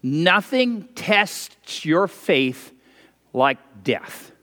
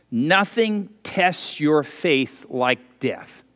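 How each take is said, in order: First: Very slow, with a pause before like death; slow, grave repetition; slower repeat. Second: Slow and weighty. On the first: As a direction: lay each word down slowly. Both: Shown as a demonstration. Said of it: "I'll say that again".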